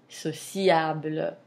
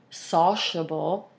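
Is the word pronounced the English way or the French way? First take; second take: French; English. First: It is pronounced with French sounds. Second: It is pronounced with English sounds. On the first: "where in French you say" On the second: "in English, you would say"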